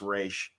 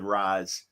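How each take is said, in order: First: The name ends with a 'sh' sound. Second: The name ends with a 'z' sound. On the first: This is the newer pronunciation popularized by the movies. "in the Nolan movies, it's Raish" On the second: This is the older pronunciation from comics and cartoons. "The animated series said Raz"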